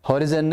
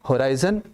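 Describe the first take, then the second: First: The second syllable has a short 'ih' vowel. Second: The second syllable has a long 'eye' vowel. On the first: The speaker calls it wrong. "हॉरिजन नहीं" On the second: The speaker calls it right. "लेकिन होता होराइजन है"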